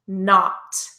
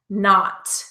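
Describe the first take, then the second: First: The word is said in an exaggerated, careful way. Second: The word is said in an exaggerated, careful way.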